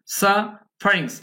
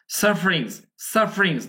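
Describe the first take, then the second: First: সাফারিংস drawn out as "sa... farings"; syllables shown apart. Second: সাফারিংস said promptly as "sar-frings"; quick schwa. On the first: Teacher showing learners how it is said, syllables apart. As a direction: break সাফারিংস slowly after its first syllable. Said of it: "এম বলছি কিন্তু". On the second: Teacher modelling schwa for learners, quick unstressed vowel. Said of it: "promptly আমাদের উচ্চারণ করতে হয়". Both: Shown as a demonstration.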